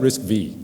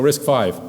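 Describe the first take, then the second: First: The last part is said as the letter vee. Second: The last part is said as the number five. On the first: The speaker calls it wrong. "Some people say, why, why isn't it RISC V?" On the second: The speaker calls it right. "It's a Roman numeral, you pronounce it five"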